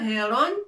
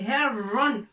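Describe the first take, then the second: First: The r sound is short and single. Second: The r sound is held and doubled. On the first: The speaker calls it wrong. "c'est pas heron" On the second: The speaker calls it right. "On est obligé de rajouter shidda pour appuyer sur la lettre Ra"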